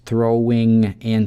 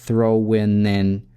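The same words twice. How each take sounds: First: The ending uses a back nasal sound. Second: The ending uses a front nasal sound. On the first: "через вилярный звук н" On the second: "либо через"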